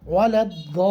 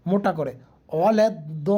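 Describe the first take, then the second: First: ওয়ালাদ-দলিন with a thick, heavy দ; heavy dod. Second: ওয়ালাদ-দলিন with a thick, heavy দ; demonstrating heavy দ again; heavy dod. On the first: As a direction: give the দ in ওয়ালাদ-দলিন a full heavy sound. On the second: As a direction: repeat ওয়ালাদ-দলিন with a deep, full দ. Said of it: "দেখছেন আমরা কি দতটা কী করে পড়ছি". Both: Shown as a demonstration.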